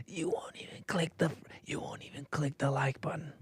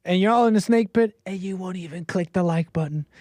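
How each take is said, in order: First: Breathy stage whisper nagging to click like. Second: Said in the usual way. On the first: Acted. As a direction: lean in and whisper the plea.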